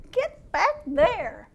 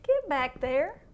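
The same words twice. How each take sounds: First: Slow, drawn-out repeated command. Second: Said in the usual way. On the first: Retold or imitated. The Lord repeating his order to the sheep, slow. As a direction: stretch each word to insist. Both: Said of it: "And the Lord said".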